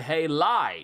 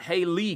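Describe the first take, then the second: First: The second syllable ends in an 'eye' sound. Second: The second syllable ends in an 'ee' sound. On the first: The speaker calls it right. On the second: The speaker calls it wrong.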